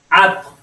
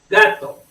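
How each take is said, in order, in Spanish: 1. El sonido g inicial se omite por completo. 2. La palabra empieza con un sonido g claro.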